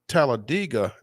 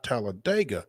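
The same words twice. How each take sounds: First: The ending sounds like the words 'dig a'. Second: The ending does not sound like 'dig a'. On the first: This is how locals say it. "you pronounced Talladega" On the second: This is how outsiders say it. "not Talladega"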